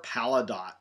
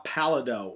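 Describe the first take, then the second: First: Palidot ending in "dot"; sounded final T. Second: Palido ending in a long "doh"; French-style silent T. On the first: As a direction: say palidot with the last T pronounced. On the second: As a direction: say palido with no T sound at the end. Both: Shown as a demonstration. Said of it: "depending on how you wanna pronounce it".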